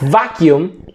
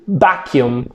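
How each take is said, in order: First: The word starts with a V sound. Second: The word starts with a B sound. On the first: "like vacuum" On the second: "they will say vacuum"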